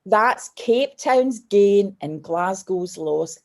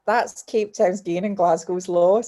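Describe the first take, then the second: First: Very slow, each word weighed; slow quoted line. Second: Slow, deliberate repeat of the motto. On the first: Airport man consoling the tearful girl, spoken very slowly. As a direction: deliver the kind man's verdict slowly and deliberately. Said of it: "And he went". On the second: Guest telling the host the line she lives by, slow and firm. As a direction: say it slowly, like a personal mantra. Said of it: "you just think". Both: Retold or imitated.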